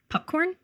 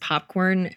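First: The first vowel sounds like a 'u'. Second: The first vowel is a normal 'o' sound.

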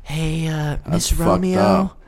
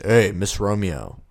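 First: The voice is raised and softened. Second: The voice is at its natural lower pitch. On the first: It sounds less threatening. "I like bring it up to not be as threatening on this podcast" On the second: This is how it was really said. "I was more like this. ... in my actual voice"

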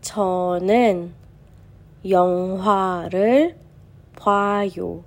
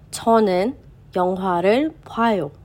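First: The sentence is read at a slower pace. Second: The sentence is read at a faster pace.

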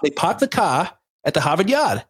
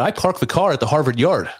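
First: It is said in a Boston accent. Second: It is said in a general American accent.

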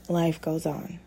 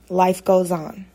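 First: The voice is quiet and low in energy. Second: The voice is louder and more energetic. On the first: The speaker calls it wrong. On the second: The speaker calls it right.

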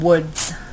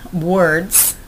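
First: The word is said without the r sound. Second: The word is said with the r sound. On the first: The speaker calls it wrong. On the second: The speaker calls it right.

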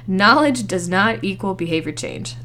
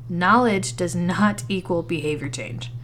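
First: The sentence is said at a louder volume. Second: The sentence is said at normal volume.

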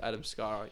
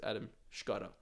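First: The name is said with an English pronunciation. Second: The name is said with a Croatian pronunciation. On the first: "my name's Adam Skara in English" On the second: "but it's Adam Skara. In Croatian"

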